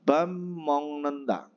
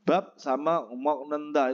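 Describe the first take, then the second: First: Bam mong nenda with the m sounds joined; slow and clear: bam mong nenda; correct pronunciation. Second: Said in the usual way. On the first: Shown as a demonstration. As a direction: bam mong nenda, not bab sama mok. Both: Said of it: "Itu cara membacanya yang benar adalah".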